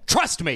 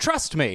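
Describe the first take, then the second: First: It is said in a forceful, insistent tone. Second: It is said in a soft, coaxing tone. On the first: The speaker is completely certain and demands belief. "at the beginning, it's, trust me. You've got to trust me. I'm so right" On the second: The speaker concedes doubt but still asks for belief. "And then 10 years later, it's like, yeah, but you can trust me"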